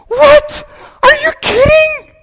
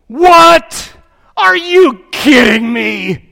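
First: It is said in a girl's voice. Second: It is said in a businessman's voice.

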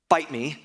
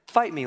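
First: It is said in a challenging, aggressive tone. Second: It is said in a soft, gentle tone. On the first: A challenge to fight. The speaker calls it wrong. "don't take it as like" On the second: An invitation to talk things through. The speaker calls it right. "a more gentle fight me than the way that we would usually say that"

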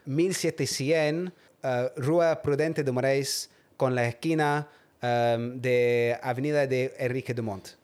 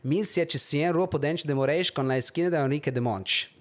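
First: It is said with a Spanish accent. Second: It is said with a Brazilian Portuguese accent.

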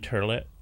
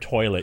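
First: The first vowel is an 'ur' sound. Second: The first vowel is an 'oy' sound. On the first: The speaker calls it wrong. "It's a regional thing. In the Bronx" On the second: The speaker calls it right. "You don't even know how to pronounce the word toilet"

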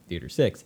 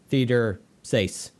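First: Six is said with a short i vowel. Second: Six is said with a long a vowel. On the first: "I heard her pronounce the word six at least four times before" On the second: "she said sace"

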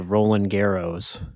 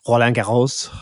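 First: It is said with an English-speaking accent. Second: It is said with a French accent. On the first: "with a, like, my accent. ... That sounds really bad" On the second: "if I were to actually do it like French"

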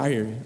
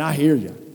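First: It sounds impatient and dismissive. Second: It sounds warm and agreeing.

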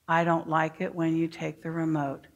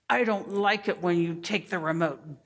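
First: It is said in a calm, even tone. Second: It is said in a harsh, demanding tone. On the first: The feeling is stated politely after taking a breath. The speaker calls it right. "first you're going to breathe. Then you're going to say" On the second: The feeling comes out as an unfriendly demand. The speaker calls it wrong. "some children sound like this"

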